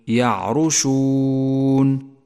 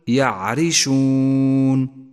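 First: The r is followed by a u vowel. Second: The r is followed by an i vowel. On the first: The speaker calls it wrong. "ولا تقل يعرشون" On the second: The speaker calls it right. "فإن الراء مكسورة وليست مضمومة، فقل يعرشون"

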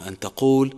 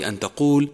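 Both takes have the same delivery.

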